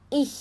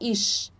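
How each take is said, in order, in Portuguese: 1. Termina com um som de "ich" suave. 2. Termina com um som de "sh". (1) "coloca a língua na frente ali dos dentes" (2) "a gente não fala ish, ish, não"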